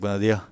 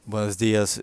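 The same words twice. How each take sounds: First: The word endings are clipped, Andalusian style. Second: The word endings are pronounced fully.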